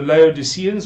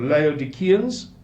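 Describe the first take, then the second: First: The c is sounded as a soft s. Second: The c is sounded as a hard k.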